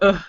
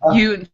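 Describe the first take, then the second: First: The letter is said as a short 'uh' vowel. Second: The letter is said like the word 'you'. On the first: It follows the Tlingit way of naming the letter. "the Tlingit pronunciations of A and U" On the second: It follows the English way of naming the letter. "I had to say U instead of uh"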